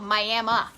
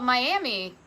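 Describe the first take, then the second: First: The name is said in an unusual local way. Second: The name is said the familiar, expected way. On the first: The speaker calls it right. "No, it's called Miami. ... pronounce it correctly" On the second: The speaker calls it wrong. "you're going to say, oh, it's called Miami"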